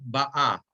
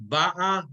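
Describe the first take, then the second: First: Ba'a stressed on the final syllable; stress on end of ba'a. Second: Ba'a high, first syllable stressed; stress on start of ba'a. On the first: Teacher contrasting the tenses, ba'a stressed on last syllable. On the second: Teacher contrasting the tenses, ba'a stressed on first syllable. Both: Shown as a demonstration. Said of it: "Everybody hear the difference".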